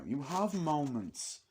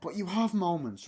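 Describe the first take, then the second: First: You have moments slowed right down; slow emphatic restatement. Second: Said in the usual way. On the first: Shown as a demonstration. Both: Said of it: "And I'll say this now".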